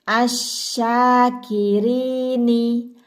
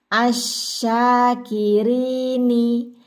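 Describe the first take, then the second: No difference in how they are said.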